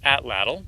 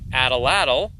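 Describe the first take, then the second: First: The t and l are joined with no vowel. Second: An extra vowel is inserted after the first t. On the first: This is how the speaker believes it is pronounced. "I think it's pronounced atlatl" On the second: This is how some other people say it. "Some people call it atalatl"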